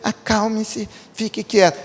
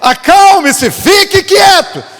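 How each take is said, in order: First: It is said softly and gently. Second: It is shouted loudly and forcefully. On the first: It sounds like a mild request. The speaker calls it wrong. "a gente lê assim" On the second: It is a command. The speaker calls it right. "uma palavra de comando. Ali foi um grito"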